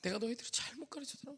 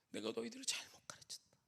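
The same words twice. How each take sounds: First: Softer lament, 너희들을 leaned on; quiet tearful repeat. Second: Soft whisper, 너희들을 rising, broken teacher; tearful whispered lament. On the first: Teacher repeating regret to students, quiet tearful lament. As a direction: repeat it broken and hushed. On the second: Teacher whispering regret to students, soft tearful whisper. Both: Retold or imitated. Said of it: "막 우시는 거예요".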